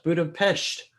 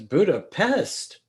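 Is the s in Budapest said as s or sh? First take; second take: sh; s. First: The s is said as sh. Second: The s is said as a plain s. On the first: The speaker calls it right. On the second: The speaker calls it wrong.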